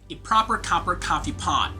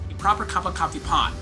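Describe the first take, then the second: First: The phrase is said at a slower pace. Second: The phrase is said at a faster pace.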